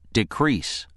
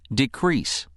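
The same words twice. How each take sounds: No difference in how they are said.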